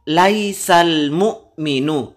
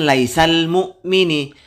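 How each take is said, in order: First: The last word ends with a u vowel. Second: The last word ends with an i vowel. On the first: The speaker calls it right. "rofaknya dengan dhammah" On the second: The speaker calls it wrong.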